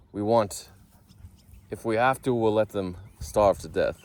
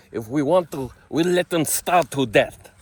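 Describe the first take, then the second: First: Bad Israeli accent. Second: High, loud, dragged-out mock Israeli accent; exaggerated Israeli accent. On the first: Quoting the Knesset in a newspaper headline, bad Israeli accent. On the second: Redoing the fake Knesset quote, hammed-up Israeli accent. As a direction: ham up an Israeli accent, booming and slow. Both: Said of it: "that was a bad accent".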